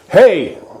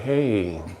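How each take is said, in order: First: The word is said sharply and with force. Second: The word is said softly and without force. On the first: The speaker calls it right. "And it's sharp like that" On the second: The speaker calls it wrong. "It's not like, hey. No, it's not like that"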